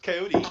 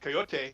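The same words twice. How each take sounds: First: It is said with an ordinary English pronunciation. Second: It is said with a Spanish pronunciation. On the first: It names the wild animal. "everyone says coyote" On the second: It names a human smuggler. "the Spanish pronunciation"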